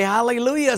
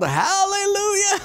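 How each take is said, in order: First: Said in the usual way. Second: High, loud yell breaking into a laugh; yelled hallelujah. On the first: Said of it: "Finally, he remembered". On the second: Retold or imitated. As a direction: shout it to stop the horse in time. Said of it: "So he yelled".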